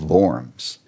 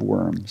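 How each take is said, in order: First: The word begins with a V sound. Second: The word begins with a W sound. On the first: "In German, a W is like a V. So we really pronounce it the Diet of Worms" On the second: "But in English, it is spelled the Diet of Worms"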